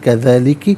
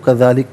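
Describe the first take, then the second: First: The word ends with a short vowel. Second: The word ends with a bare consonant. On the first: The reading continues without stopping. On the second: The reader stops at this word.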